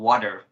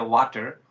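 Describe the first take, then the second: First: It is said with an American English accent. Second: It is said with a Bangladeshi English accent. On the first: "the American English that's called water" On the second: "my public of Bangladesh, they used to say water"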